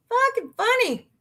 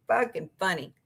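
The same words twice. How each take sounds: First: "Fucking funny" squeaked much higher; high repeat. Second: Said in the usual way. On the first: Shown as a demonstration.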